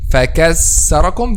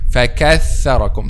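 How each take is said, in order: First: The middle consonant is a clear s sound. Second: The middle consonant is a clear th sound. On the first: The speaker calls it wrong. "This is a clear letter C" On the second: The speaker calls it right. "the correct pronunciation of this word"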